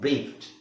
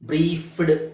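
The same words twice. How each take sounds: First: The word ends with a t sound. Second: The word ends with a d sound. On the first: The speaker calls it right. "F E ಡಿ ಬಂದಾಗ್ಲೂ ಟಿ" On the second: The speaker calls it wrong. "ಬ್ರೀಫ್ಡ್ ಅಂತ ಬರಲ್ಲ"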